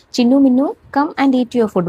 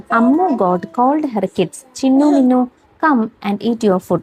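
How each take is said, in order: First: A lightly voiced mother goat calling out, higher; mild sing-song call to the kids. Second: Slow, careful read-aloud; slow dictation of a children's story. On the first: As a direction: call the kids to come eat. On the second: Shown as a demonstration. Teacher reads story for dictation.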